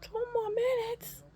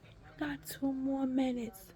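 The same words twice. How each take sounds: First: Very high-pitched incredulous echo; retold dismayed disbelief. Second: Slow, higher-pitched imitation of the nurse; lightly voiced nurse. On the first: Patient echoing the nurse in dismay, high and incredulous. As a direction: squeal it back, aghast. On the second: Nurse tells patient time remaining, slow lightly voiced. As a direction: draw it out lightly, imitating staff. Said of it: "She was like".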